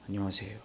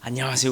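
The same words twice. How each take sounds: First: The greeting sounds stern and scary. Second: The greeting sounds happy and smiling.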